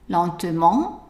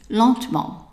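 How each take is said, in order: First: The middle vowel is pronounced, three syllables. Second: The middle vowel is dropped, two syllables. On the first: "when we pronounce the E" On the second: "when we drop the E"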